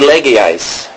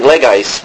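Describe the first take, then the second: First: The word is said with three syllables. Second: The word is said with two syllables. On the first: "but it may be legais. I don't remember there being three syllables" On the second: "I just remember pronouncing legais"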